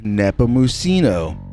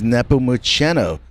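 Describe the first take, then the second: First: The ending rhymes with casino. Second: The ending rhymes with penno. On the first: He is exciting. "Excitement. Like a Reno casino" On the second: He is distinguished. "Distinguished. Like an old quill penno"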